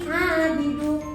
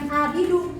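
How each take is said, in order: First: It starts with a throaty pharyngeal sound. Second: It starts with a plain glottal stop. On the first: The speaker calls it right. "seharusnya ain" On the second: The speaker calls it wrong. "bukan ain tadi malah hamzah"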